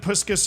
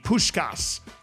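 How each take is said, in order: First: The middle consonant is a plain s sound. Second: The middle consonant is an sh sound. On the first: The speaker calls it wrong. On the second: The speaker calls it right.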